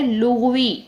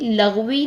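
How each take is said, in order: First: The first vowel is 'u'. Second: The first vowel is 'a'. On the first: It is the word about language. The speaker calls it right. "तो ये word है लुग़वी" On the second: It sounds like a word about bad talk. The speaker calls it wrong. "ये word भी लग़वी नहीं है"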